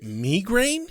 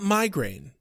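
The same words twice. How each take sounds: First: The word is said in a British way. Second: The word is said in an American way. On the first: This is how a British actor says it. "Wesley pronounces it migraine" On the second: This is the speaker's usual way of saying it. "not migraine"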